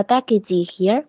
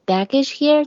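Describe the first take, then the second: First: "baggage here" with "baggage" ending in a full "jee"; added final vowel. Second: "baggage here" with a light final sound on "baggage"; light word ending. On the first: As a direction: add an extra ee syllable after "baggage". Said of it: "不要记". (“baggage”结尾错读成“记”) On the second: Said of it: "是我们最后轻轻读". (“baggage”结尾轻轻读，不加元音) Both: Shown as a demonstration.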